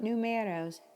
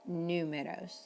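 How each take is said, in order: First: The U syllable is not stressed. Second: The U syllable is strongly stressed. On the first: The speaker calls it wrong. "not numeros" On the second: The speaker calls it right. "it's important to emphasize that sound"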